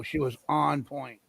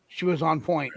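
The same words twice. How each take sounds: First: "on" drawn out, slow and low; low, softer emphasis with a stretched "on"; stress on "on". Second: Said in the usual way. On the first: Real, not acted. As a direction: lean slowly on "on", voice dropped. Repeats praise for emphasis.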